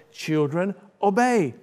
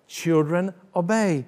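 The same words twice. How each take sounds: The two takes are said the same way.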